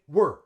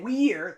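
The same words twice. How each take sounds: First: The vowel is reduced to a schwa. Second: The vowel is a long ee sound. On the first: The speaker calls it right. "they would say we're" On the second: The speaker calls it wrong. "they wouldn't say we're"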